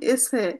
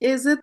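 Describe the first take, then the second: First: The middle consonant is a voiceless s sound. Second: The middle consonant is a voiced z sound. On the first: The speaker calls it right. "এটার উচ্চারণ এসে" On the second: The speaker calls it wrong. "এজে তো হবেই না"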